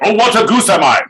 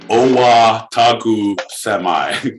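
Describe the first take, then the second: First: The phrase is said at a fast pace. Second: The phrase is said at a slow pace.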